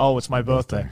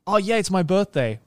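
First: It is said in a weary, resigned way. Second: It is said with excited, childish enthusiasm.

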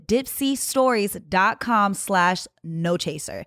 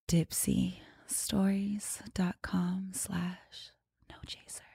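First: It is said in a normal ad-read voice. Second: It is said in a sultry, seductive voice.

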